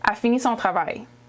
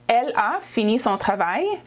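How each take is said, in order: First: The opening pronoun is left out. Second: The opening pronoun is said aloud.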